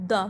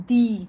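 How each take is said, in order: First: "the" said as a quick "duh"; brief "thuh" for "the"; short "the". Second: "the" said as "thee", louder; emphatic long "thee" for "the". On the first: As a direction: keep "the" short with a schwa. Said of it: "not the". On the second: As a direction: lean on "the" with a long ee. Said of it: "We will say it the". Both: Shown as a demonstration.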